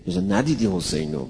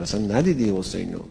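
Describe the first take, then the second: First: ندیدی lifted high with a falling end; stress on ندیدی. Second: Quick repeat. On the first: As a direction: hit ندیدی high, then let it fall. Preacher stresses rhetorical point. (تأکید روی «ندیدی» با صدای بالا) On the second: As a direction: rattle off اصلاً ندیدی حسینو fast. Preacher repeats the point quickly. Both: Shown as a demonstration.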